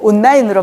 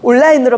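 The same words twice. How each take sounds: First: The middle is said with a double n. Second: The middle is said with a double l. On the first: "니은 미은으로 변합니다" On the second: "니을 리을로 변하거나"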